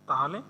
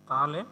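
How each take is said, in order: Both takes have the same delivery.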